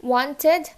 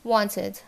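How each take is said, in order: First: ওয়ান্টেড loud, rising to "TED"; heavy E closing ওয়ান্টেড; spelled ED ending. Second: "wanted" with a light "tid"; short I closing "wanted"; correct ID ending. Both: Shown as a demonstration. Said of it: "it is wanted".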